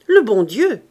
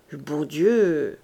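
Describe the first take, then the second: First: Loud, emphatic pronouncement; with authority. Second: Slow, low, dazed echo; mechanical repetition. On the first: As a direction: state it firmly, as the last word. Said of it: "fit l'homme avec autorité". (avec autorité, fort et catégorique) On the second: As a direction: repeat it absently, drawn out and low. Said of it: "répéta machinalement". (répétition machinale, lente et hébétée) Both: A narrator's reading.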